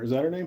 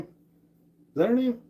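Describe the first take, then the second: First: Said in the usual way. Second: Slow, much higher, sing-song question; sing-song repeat. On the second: Pretend. Asking the stream chat about a name again, slow sing-song. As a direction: draw the question out, teasing and high.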